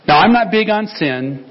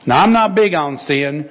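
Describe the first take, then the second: First: It is read in the speaker's ordinary accent. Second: It is read in a Southern American accent.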